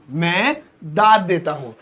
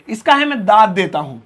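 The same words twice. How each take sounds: First: Slow, careful model line; दाद said slowly and clearly; slow repeat. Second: Said in the usual way. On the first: Shown as a demonstration. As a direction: say it slowly for them.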